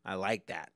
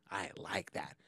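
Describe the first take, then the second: First: Said in the usual way. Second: Whispered repeat of I like that. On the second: Real, not acted.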